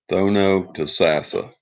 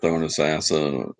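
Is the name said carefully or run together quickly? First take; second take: careful; quick. First: Every syllable of the name is said carefully. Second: The name is said fast with syllables dropped. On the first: The speaker calls it right. "That's the right way to pronounce it" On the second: The speaker calls it wrong. "I used to call it Thornasassa, real fast"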